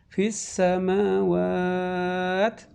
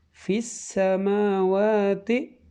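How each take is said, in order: First: It stops, dropping the final vowel. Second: It runs on, keeping the final vowel. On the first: The reader pauses at this point. "Ketika kondisi waqaf, kita berhenti di tengah" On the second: The reading continues into the next word. "Dalam kondisi waswal"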